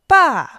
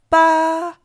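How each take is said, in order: First: The pitch falls sharply from high. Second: The pitch stays high and level.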